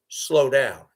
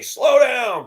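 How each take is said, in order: First: Said in the usual way. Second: High, loud slow down; shouting at the speeding driver; yelled warning. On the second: Retold or imitated. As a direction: call it out sharply at the car.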